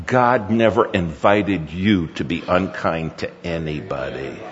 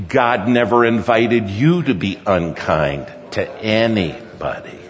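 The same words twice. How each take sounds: First: Low, softer, deliberate correction; gently but firmly lay down the rule; measured admonishment. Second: Emphatic, deliberate repeat to make it stick; insistent admonishment. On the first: Father correcting his son after yelling, measured admonishment. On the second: Father demanding son listen about kindness, insistent admonishment. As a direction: press each word home firmly. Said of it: "And will you listen to me?". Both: Retold or imitated.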